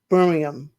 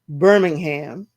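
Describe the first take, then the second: First: It is said the British way. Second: It is said the American way.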